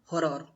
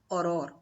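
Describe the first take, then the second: First: The initial h sound is pronounced. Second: The initial h sound is silent. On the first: The speaker calls it wrong. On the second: The speaker calls it right.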